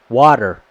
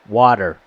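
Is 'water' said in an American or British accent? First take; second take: American; American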